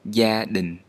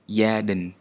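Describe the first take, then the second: First: The first consonant sounds like English y. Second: The first consonant sounds like English y.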